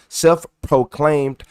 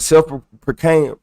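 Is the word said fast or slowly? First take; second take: slowly; fast. First: The word is said slowly and carefully. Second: The word is said quickly and stumbled over. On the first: The speaker calls it right. "I ain't saying that fast. I gotta slow down" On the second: The speaker calls it wrong. "I'm saying it wrong"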